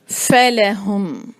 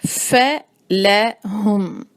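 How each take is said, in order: First: فَلَهُمْ said slowly with a breathy ف; slow recitation. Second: فَلَهُمْ drawn out very slowly, each letter clear; slower recitation. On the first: (فَلَهُمْ آہستہ) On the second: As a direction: stretch فَلَهُمْ fully. (فَلَهُمْ بہت آہستہ) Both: Shown as a demonstration. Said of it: "ف جو ہے".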